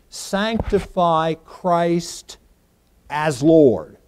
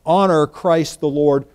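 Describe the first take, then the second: First: Slow and deliberate, with "Lord" punched loud at the end; weight on "Lord" as the predicate; stress on Lord. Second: Slowed, with "honor" stressed instead of "Lord"; "honor" carries the weight, "Lord" stays light. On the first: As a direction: say "Sanctify Christ as Lord" and land hard on "Lord". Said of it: "The predicate accusative is the word Lord". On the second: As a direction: lean on "honor" in "honor Christ the Lord". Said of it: "the emphasis is being placed on". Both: Shown as a demonstration.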